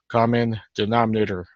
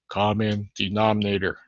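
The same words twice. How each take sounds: First: It is said louder. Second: It is said at normal, softer volume.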